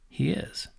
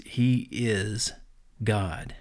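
First: A breathy hushed whisper, higher. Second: Said in the usual way. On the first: Real, not acted. Preacher echoing to listeners in an awed whisper. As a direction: let the words drop to a whisper of awe. Hushed echo of his declaration.

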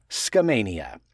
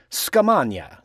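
First: Skamania said skuh-MAY-nee-uh; correct pronunciation. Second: Skamania said skuh-MAH-nya, with an ah vowel; wrong Italian-style pronunciation. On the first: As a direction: Skamania with a long ay in the middle. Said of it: "the correct way to say it is Skamania". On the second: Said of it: "tempted to say Skamania, like it's Italian". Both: Shown as a demonstration.

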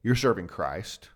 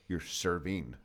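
First: CHRIST as the weighted word; stress on CHRIST. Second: SERVING as the weighted word; stress on SERVING. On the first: First of two points about leadership, stress on CHRIST. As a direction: land slowly on the word Christ. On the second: Second of two points about leadership, stress on SERVING. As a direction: land the point on serving itself. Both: Shown as a demonstration. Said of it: "there's two kind of things".

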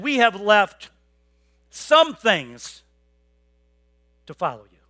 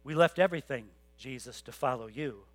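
First: Louder, stressing have, a mock-proud Peter; We have left some things said like a small brag; mock Peter boasting of his sacrifice; half-hearted boast. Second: Much softer, lower, We left everything said humbly; quiet and sincere. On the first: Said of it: "He answered Jesus and said". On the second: Retold or imitated. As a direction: hush it down, a real confession. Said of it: "No, he says".

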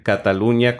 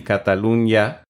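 First: Cataluña said with one palatal ñ sound. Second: Cataluña said as Catalun-ya. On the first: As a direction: blend Cataluña's last consonant into one ñ. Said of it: "decir Cataluña con ñ". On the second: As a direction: say Cataluña with n and y as separate sounds. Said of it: "Es muy sutil la diferencia". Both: Shown as a demonstration.

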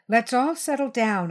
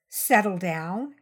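First: Placating, a bit raised in pitch; smooth it over, pitch lifted. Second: Slow, drawn-out mocking question; mocking mimicry. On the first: Child trying to settle a violent adult, smooth voice. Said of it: "what I hoped was a smooth voice". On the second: Phil mimicking the child's plea, mocking. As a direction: throw it back slowly, rising at the end. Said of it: "he mimicked". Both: A narrator's reading.

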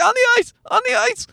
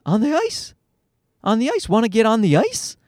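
First: Put-on very high, squealing kid tantrum; mock tantrum, pitch shot way up; toddler throwing a fit. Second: Put-on higher, hopeful kid question; childlike rising request; toddler asking. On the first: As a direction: imitate a small child's shrieky insistence. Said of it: "And he threw a fit". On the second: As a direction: imitate a small boy pleading to join in. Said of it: "And he's like".

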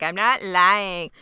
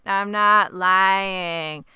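First: Drawn-out, unemotive mock denial; slow, oddly toneless protest; dramatic but emotionless. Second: Very slow, stretched-out mock denial; dramatic, emotionless reenactment. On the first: Boy denying it to his moms, dramatic yet emotionless. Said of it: "most dramatic, but also the least emotive way possible". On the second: Reenacting the boy's denial to his moms, hammed-up and emotionless. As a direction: drag out each word like a robotic protest. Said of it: "I wish I could reenact it".

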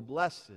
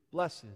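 First: "blessed" said in two syllables, accent on the second; fanciful bless-ED. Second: Said in the usual way. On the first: Shown as a demonstration. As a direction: give "blessed" a fancy stress on the final "-ed". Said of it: "fanciful accent on the second syllable".

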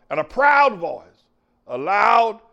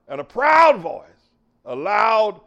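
No difference in how they are said.

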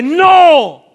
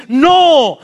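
First: Louder no. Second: Loud no. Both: Shown as a demonstration. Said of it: "más fuerte".

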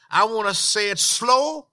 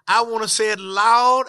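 First: Slight drawl-out on "slow"; deliberately slow. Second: A push of volume on "loud"; deliberately loud. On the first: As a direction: take your time, stretching "slow" a little. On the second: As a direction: raise the voice a little, landing hard on "loud". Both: Shown as a demonstration.

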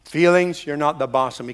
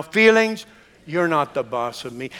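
First: Said in the usual way. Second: Feelings called out firmer, then a firm you're not the boss of me; with more conviction. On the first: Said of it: "we can say". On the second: Shown as a demonstration. Congregation urged to repeat it, now with more conviction. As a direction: say it like you mean it. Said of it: "with more conviction now".

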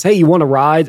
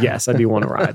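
First: A hint of the South Georgia accent. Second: Said in the usual way. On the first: A trucker offering a stranger a ride, a light South Georgia accent. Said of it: "in, in the accent says". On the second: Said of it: "And I said".

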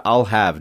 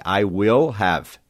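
First: I'll have, run together quickly; contracted form. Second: I will have, each word slow and full; slow full form. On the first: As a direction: clip I'll have into one beat. (forma contraída: I'll have) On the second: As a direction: spell out I will have without contracting. (forma completa e lenta: I will have) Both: Shown as a demonstration. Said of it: "I will contraído para I'll".

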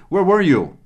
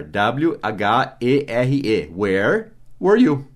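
First: "Where were you?" with stress on "were", rising high and then falling; natural question tune on "Where were you?"; question intonation. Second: "Where were you?" said slowly, each word apart; slow classroom model of "Where were you?"; slow, spelled-out pace. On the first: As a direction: punch "were" high and let "you" fall. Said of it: "Com essa entonação". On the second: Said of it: "o onde é where". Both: Shown as a demonstration.

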